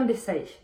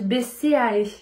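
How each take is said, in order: First: The name is said in a quick, shortened form. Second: The name is said in its full, longer form. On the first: This is the speaker's own habitual pronunciation. "Mais j'aime bien Bessae. Ça va plus vite" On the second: This is how people are supposed to say it. "je pense qu'on dit Bessae"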